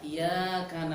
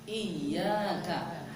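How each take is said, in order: First: The y sound is single and short. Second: The y sound is doubled and held. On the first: The light of the sun. The speaker calls it wrong. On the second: You alone. The speaker calls it right.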